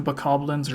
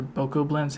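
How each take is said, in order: First: Bokoblins with a reduced first vowel, buh-KOB-lins; first-syllable unstressed Bokoblins. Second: Bokoblins with two long o sounds, BOH-koh-blins. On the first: Interviewer tries one pronunciation of an enemy name, Bokoblins as buh-KOB-lins. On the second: Interviewer offers the other pronunciation of an enemy name, Bokoblins as BOH-koh-blins. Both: Shown as a demonstration. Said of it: "however you pronounce it".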